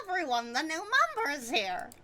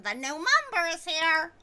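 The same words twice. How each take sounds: First: High character announcement; announcer voice. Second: High announcing voice; character voice. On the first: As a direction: announce it brightly. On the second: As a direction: announce the new member. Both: Acted. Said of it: "Let me try that again".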